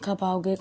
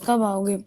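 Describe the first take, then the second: First: Said in the usual way. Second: Impatient repeat. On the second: Retold or imitated. Girl messaging her friend, impatient repeat. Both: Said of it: "बार बार वो message कर रही".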